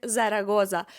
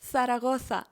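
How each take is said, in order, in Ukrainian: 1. Літери z звучать як дзвінкий z. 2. Літери z звучать як видихнений th. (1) "ні в якому разі не буде вимовлятися як «зарагоза»" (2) "Ми скажемо «Сарагоса»"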